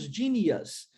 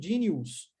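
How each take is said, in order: First: The ending is said as a short 'us'. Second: The ending is said as a Portuguese-style 'ous'. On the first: The speaker calls it right. "nós dizemos genius" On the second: The speaker calls it wrong. "As pessoas dizendo genius"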